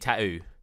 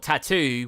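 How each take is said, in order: First: The middle t is dropped. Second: The middle t is clearly pronounced.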